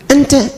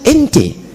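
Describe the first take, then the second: First: The vowels are pronounced as open A sounds. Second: The vowels are shifted toward E sounds.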